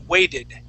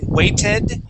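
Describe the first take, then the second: First: The middle consonant sounds like a D. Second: The middle consonant is a clear T sound. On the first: The speaker calls it right. "we would say weighted" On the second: The speaker calls it wrong. "Instead of saying weighted"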